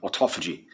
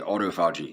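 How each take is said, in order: First: It is said with a British pronunciation. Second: It is said with a non-British pronunciation. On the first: The speaker calls it wrong. "not autophagy" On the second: The speaker calls it right. "I'm not British. I say autophagy"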